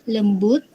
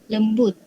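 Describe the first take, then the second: The two takes are said the same way.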